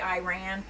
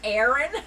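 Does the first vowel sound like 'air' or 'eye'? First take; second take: eye; air. First: The first vowel sounds like 'eye'. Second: The first vowel sounds like 'air'. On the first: The speaker calls it wrong. "I've been pronouncing it wrong. I don't know why I say Iran" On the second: The speaker calls it right. "It's Aran"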